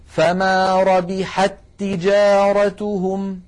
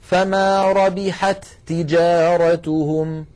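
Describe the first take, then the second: First: "ربحت تجارتهم" with the two ta sounds merged into one doubled ta, slowly. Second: "ربحت تجارتهم" with both ta sounds said apart, slowly; wrong, unmerged "ربحت تجارتهم"; separated ta sounds. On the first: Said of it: "بل يقولون". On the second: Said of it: "العرب لا تقول". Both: Shown as a demonstration.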